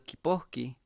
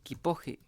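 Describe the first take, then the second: First: The word is said at a normal, careful speed. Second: The word is said very fast with a softened consonant.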